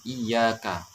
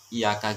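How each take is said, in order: First: The y sound is doubled and held. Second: The y sound is single and short. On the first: It means 'to You' (God). The speaker calls it right. "harus gitu ya, ya-nya ada tasydidnya" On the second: It means 'to the sun'. The speaker calls it wrong. "tanpa tasdid pendek iyyaka gitu"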